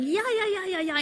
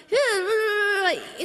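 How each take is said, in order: First: High, lively chorus of yeahs; grandma's eager yeahs. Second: High yeahs breaking into laughter; old Italian neighbour's yeahs. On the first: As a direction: imitate grandma nodding along, high. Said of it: "in Chinese". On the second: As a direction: mimic the neighbour over the fence, high and laughing. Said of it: "in Italian". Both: Retold or imitated.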